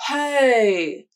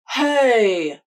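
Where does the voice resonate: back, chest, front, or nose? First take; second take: front; front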